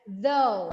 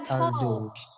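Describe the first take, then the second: First: The first sound is an airy th. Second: The first sound is a hard d. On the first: The speaker calls it right. "ada air yang mengalir di antaranya" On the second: The speaker calls it wrong.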